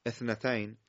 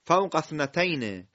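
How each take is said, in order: First: "اثنتین" begun alone as ethnatayn, a little lower and softer; hamza with kasra. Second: "اثنتین" linked after "فوق" as fawqa-thnatayn; joined recitation. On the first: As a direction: open "اثنتین" on a short e/i. (شروع «اثنتین» با کسره) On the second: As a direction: drop the first vowel of "اثنتین", run on from "فوق". (وصل «اثنتین» به «فوق»، بدون همزه) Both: Shown as a demonstration. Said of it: "فوق نخونیم بخونیم".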